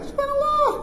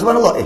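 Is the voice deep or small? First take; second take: small; deep. First: It is said in a small, thin voice. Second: It is said in a deep, gruff voice. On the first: Yet another person behind is saying it. "bunyi suara kecil kat belakang" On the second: A different person behind is saying it. "suara lain. Garau sikit"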